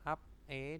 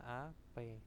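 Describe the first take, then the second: First: The syllables are said separately, final consonant kept. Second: The final consonant moves into the next syllable.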